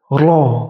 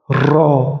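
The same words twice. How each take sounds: First: The R is short, tapped just once. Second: The R is drawn out and rolled long. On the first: The speaker calls it right. "R-nya cukup satu kali" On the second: The speaker calls it wrong. "yang keliru itu apabila R-nya dipanjangkan"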